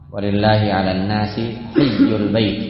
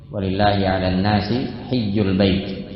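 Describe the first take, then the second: No difference in how they are said.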